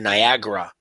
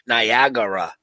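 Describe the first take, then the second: First: The word is said with three syllables. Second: The word is said with four syllables. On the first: This is the form it always had. "instead of Niagara. Like it always was" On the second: This is the newer form. "It's like a whole extra syllable"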